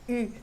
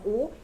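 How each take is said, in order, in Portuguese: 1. A vogal é um som francês arredondado e anterior. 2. A vogal é um som de 'oo' português. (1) "em francês é U" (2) "nossa vogal U"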